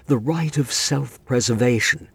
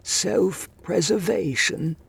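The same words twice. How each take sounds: First: Said in the usual way. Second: High, slow disbelieving echo; incredulous. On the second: A narrator's reading. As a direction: repeat it in haughty disbelief. Master echoes in disbelief.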